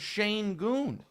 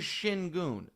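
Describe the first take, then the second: First: The first syllable sounds like 'shane'. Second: The first syllable sounds like 'shin'. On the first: This is how the announcer keeps saying it. The speaker calls it wrong. "There is no A in the name" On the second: This is the player's actual name. The speaker calls it right. "His name is Shingun"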